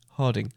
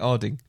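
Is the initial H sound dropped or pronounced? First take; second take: pronounced; dropped. First: The first H sound is pronounced. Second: The first H sound is dropped. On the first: This is how the speaker says it. "And I say Harding" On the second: This is how the other person says it. "you always miss out H's ... And you say Harding"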